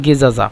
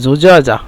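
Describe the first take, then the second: First: The word begins with a hard 'g' sound. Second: The word begins with a soft 'j' sound. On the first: "মিশরিরা গেজাজা বলে direct" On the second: "এই যে বলছিলাম জুজাজা"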